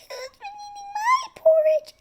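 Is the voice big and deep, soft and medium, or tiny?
tiny. A tiny, high, little voice. "In her tiny little voice Baby Bear said"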